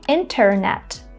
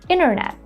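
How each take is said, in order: First: The T after the N is pronounced. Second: The T after the N is silent. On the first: "instead of saying" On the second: "Americans will say"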